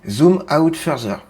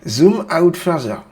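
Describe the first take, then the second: First: It is spoken with a French accent. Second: It is spoken with an American accent.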